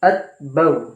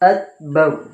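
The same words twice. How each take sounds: Both takes have the same delivery.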